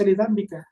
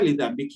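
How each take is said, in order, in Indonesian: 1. Kata ini diakhiri dengan vokal 'a'. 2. Kata ini diakhiri dengan vokal 'i'. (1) "bisa dibaca lidambika" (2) "bisa dibaca lidambiki"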